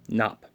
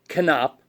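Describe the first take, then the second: First: The initial K sound is silent. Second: The initial K sound is pronounced.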